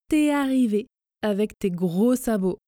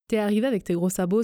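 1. La phrase est dite lentement et soigneusement. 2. La phrase est dite vite et avec fluidité. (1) "je prononce lentement mais en faisant les contractions" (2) "à la vitesse express"

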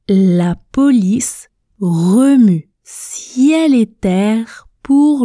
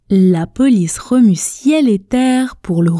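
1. La phrase est prononcée très lentement et avec soin. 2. La phrase est prononcée à un rythme modéré et plus fluide. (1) "Répétez avec moi à la vitesse tortue" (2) "On répète 2 fois ensemble, un peu plus vite"

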